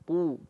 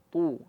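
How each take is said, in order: The two takes are said the same way.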